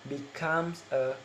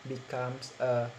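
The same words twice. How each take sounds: Both takes have the same delivery.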